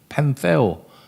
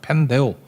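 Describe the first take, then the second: First: The middle consonant is a th sound. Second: The middle consonant is a d sound. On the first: This is how English speakers say it. "미국 애들은 펜세오라 그러던데" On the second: This is how seminaries usually say it. "신학교에서는 펜데오라고 많이 발음하대"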